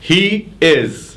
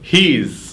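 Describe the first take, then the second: First: Two separate full words are said. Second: The words are merged into one short syllable.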